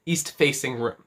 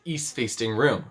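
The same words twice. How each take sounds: First: Said in the usual way. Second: Facing slipped into "faysting"; stumbled pronunciation. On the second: Real, not acted. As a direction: add a stray t, east-FAYST-ing room.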